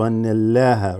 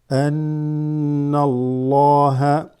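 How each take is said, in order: First: The L in Allah is light, thin. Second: The L in Allah is heavy, full-mouthed. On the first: The speaker calls it wrong. "as opposed to" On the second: The speaker calls it right. "this is read as a full mouth"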